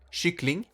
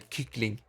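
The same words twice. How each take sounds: First: The word begins with a soft sh sound. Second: The word begins with a hard k sound. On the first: The speaker calls it right. "So you pronounce it with sh" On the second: The speaker calls it wrong. "play stupid and say kyckling. Because that's how it's spelled"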